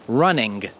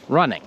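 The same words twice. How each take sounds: First: The final G is sounded strongly. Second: The final G is only lightly sounded. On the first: The speaker calls it wrong. "I'm not saying running" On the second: The speaker calls it right. "Other times we'll pronounce the G softly"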